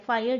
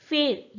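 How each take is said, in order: First: The vowel glides as a diphthong. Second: The vowel is a single steady vowel. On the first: This is the modern pronunciation. "फायर जो कि अपने आप में diphthong है" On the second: This is the older pronunciation. "Use किया जाता था"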